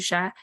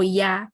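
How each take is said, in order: First: It is said with an Argentine pronunciation. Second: It is said with a Spanish or Mexican pronunciation.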